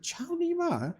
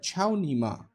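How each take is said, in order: First: Ciao, Nima echoed much higher like a confused question; the Chinese player repeats the words back, baffled; puzzled repeat. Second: Chao ni ma said quickly as if a greeting; passing off Chao ni ma as ni hao ma; mock Chinese insult. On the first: Retold or imitated. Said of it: "And he said". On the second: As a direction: slip Chao ni ma in like a casual hello. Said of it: "I said".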